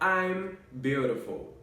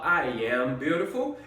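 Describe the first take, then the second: First: I am is shortened into one syllable. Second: I am is said as two full words. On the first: "eu vou simplesmente falar" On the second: "Em vez de eu precisar falar"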